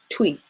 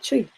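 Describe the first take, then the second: First: The word begins with a tw sound. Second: The word begins with a tr sound. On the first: The speaker calls it wrong. "it's definitely not twee, which is the way that you would see it" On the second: The speaker calls it right. "just practicing the word tree is a good practice"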